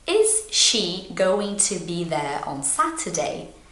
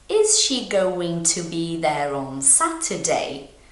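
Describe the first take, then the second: Both takes have the same delivery.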